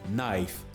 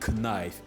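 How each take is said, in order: First: The K sound is silent at the start. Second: The K sound is pronounced at the start. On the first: The speaker calls it right. "The K is silence" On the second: The speaker calls it wrong. "Don't say knife"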